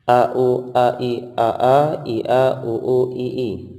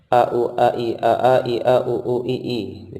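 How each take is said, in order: First: The sequence is read at a slow pace. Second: The sequence is read at a fast pace. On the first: "Jadinya bacaan seperti ini"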